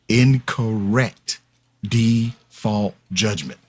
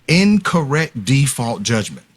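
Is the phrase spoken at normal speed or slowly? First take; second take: slowly; normal. First: The phrase is spoken slowly and deliberately. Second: The phrase is spoken at normal speed.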